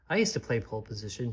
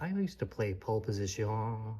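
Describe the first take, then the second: First: It is said in a plain, ordinary accent. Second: It is said in a put-on French accent. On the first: The speaker calls it right. "She just said" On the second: The speaker calls it wrong. "She didn't say, ... She's not French"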